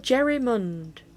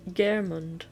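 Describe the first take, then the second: First: The name is said as Jerrymund. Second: The name is said as Geirmund.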